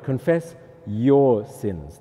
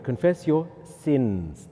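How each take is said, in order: First: YOUR stretched out and leaned on; stress on YOUR. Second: SINS drawn out at the end; stress on SINS. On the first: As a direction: confess YOUR sins, slowly, with weight on your. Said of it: "Second word". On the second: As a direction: confess your SINS, slowly, landing on sins. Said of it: "Then third word". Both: Shown as a demonstration.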